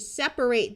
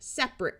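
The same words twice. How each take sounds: First: The final syllable has a long A vowel. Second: The final syllable has a schwa vowel. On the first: It is a verb: to pull apart. "verbs with a long A sound" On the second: It is an adjective: not together. "adjectives that schwa"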